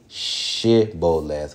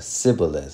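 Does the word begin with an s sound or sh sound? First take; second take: sh sound; s sound. First: The word begins with a sh sound. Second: The word begins with an s sound. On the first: "a certain way of saying shibboleth with the sh" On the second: "the dialect of another one was"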